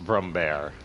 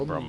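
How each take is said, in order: First: The last syllable sounds like 'bear'. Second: The last syllable sounds like 'bar'. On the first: This is how the name is properly pronounced. "it's Brumbear" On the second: This is the speaker's own habitual way of saying it. "but I say bar"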